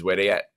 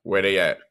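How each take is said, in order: First: Low, laughing where they at; knowing slang delivery. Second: Low, deliberate where they at with weight on where; knowing slang delivery. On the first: Host tells a phone-call story, laughing "where they at". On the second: Host repeats his catchphrase to a co-host, deliberate. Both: Shown as a demonstration. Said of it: "I'm going to say it in a certain way now".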